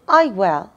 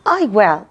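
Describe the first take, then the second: The two takes are said the same way.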